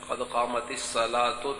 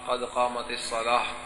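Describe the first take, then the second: First: The last word ends with an oo vowel. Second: The last word ends with a soft h sound. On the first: "ता पर पेश है" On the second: "वक्त पर के कहना चाहिए"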